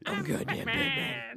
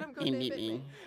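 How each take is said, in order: First: It is said in a put-on Batman voice. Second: It is said in his normal speaking voice.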